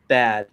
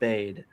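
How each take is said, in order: First: The vowel is short, rhyming with 'sad'. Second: The vowel is long, rhyming with 'made'. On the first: "He said bad" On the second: "not bade"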